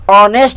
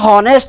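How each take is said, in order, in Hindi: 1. शब्द सीधे स्वर से शुरू होता है। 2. शब्द एच की ध्वनि से शुरू होता है। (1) "आ से ऑनेस्ट" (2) "एच से तो ह होता है, बट इसका हॉनेस्ट नहीं"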